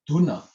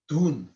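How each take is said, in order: First: "dhuna" with the na said out fully after the dhu; full na. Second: "dhun" with the na cut off at the end; wrong half na. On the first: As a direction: finish "dhuna" with a clear full na. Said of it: "dhu, and then na". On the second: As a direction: clip "dhun" short, the way not to say it. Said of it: "I didn't say". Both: Shown as a demonstration.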